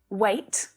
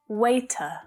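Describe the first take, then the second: First: The word ends cleanly on its final consonant. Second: An extra vowel is added after the final consonant. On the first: The speaker calls it right. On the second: The speaker calls it wrong.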